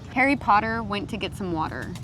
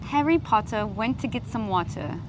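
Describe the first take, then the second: First: It is said in an American accent. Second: It is said in a non-American accent. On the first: "Try the same sentence but American" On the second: "I'll try and mimic you"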